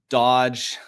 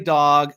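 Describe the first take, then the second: First: It has a short vowel and ends in a j sound. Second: It has a short vowel and ends in a hard g. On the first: "I didn't say Dodge like I normally do" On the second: "I didn't say dog"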